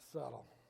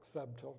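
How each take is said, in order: First: The b in the middle is silent. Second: The b in the middle is sounded. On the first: "you pronounce it subtle" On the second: "it looks like subtle"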